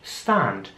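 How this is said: The vowel is an open 'ah' sound. "dass das Wort mit einem A ausgesprochen wird im britischen Englisch"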